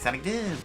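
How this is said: The voice is high and squeaky.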